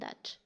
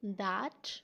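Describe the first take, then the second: First: The word is said quickly in a reduced form. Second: The word is said in its full, strong form. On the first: "weak form means के आप spoken में तेज़ तेज़ी से बात कर रहे" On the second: "strong form में बोलेंगे"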